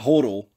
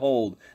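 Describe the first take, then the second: First: The word ends with an 'odl' sound. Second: The word ends with an 'old' sound. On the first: The speaker calls it wrong. "not hodl" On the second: The speaker calls it right. "still saying hold"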